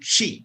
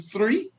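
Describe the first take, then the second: First: The word starts with a 'ch' sound. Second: The word starts with a 'th' sound.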